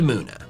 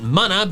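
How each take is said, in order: First: The name sounds like moo plus Luna. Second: The name sounds like it rhymes with Bubba. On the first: The speaker calls it right. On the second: The speaker calls it wrong.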